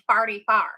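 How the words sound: It is said with country St. Louis vowels. "they say farty far"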